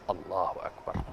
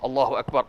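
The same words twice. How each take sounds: First: It is said quietly, only to oneself. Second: It is said loudly, for the whole mosque.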